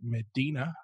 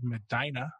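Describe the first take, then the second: First: The name is said the outsiders' way. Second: The name is said the local way. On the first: This is how people from elsewhere say the name. The speaker calls it wrong. "Everyone else would pronounce it Medina, but yeah, That's not how you say it" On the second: This is how residents say the name. The speaker calls it right. "I'm in a nice little city called Medina"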